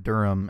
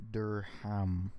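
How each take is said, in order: First: Said in the usual way. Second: Durham slowly split as DUR-HAM; alternative pronunciation. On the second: Shown as a demonstration. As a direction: say Durham with a sounded H and a full "ham". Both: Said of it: "I've always said Durham".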